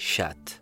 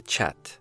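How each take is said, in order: First: The word begins with a soft sh sound. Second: The word begins with a ch sound. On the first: A foreign speaker said it this way. The speaker calls it wrong. "لأنه تشا لا تنطق في تلك الدول" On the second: This is how a native speaker would say it. The speaker calls it right. "وليس chat"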